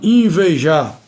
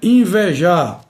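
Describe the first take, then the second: First: The E vowel is pronounced closed. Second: The E vowel is pronounced open. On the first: The speaker calls it wrong. "e não invejar" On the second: The speaker calls it right. "O correto é invejar"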